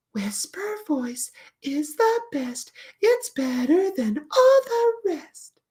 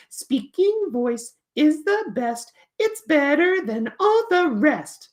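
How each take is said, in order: First: Very high, slow, whispery puppet recitation; Flitter reciting. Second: High, slow puppet recitation; Peter reciting. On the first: Puppet recites her whisper poem, high and drawn-out. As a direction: draw out the rhyme in a tiny, high, whispery voice. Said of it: "it goes like this". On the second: Puppet recites his poem to teacher, high and drawn-out. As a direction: chant the rhyme slowly in a high character voice. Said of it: "the poem goes like this". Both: Acted.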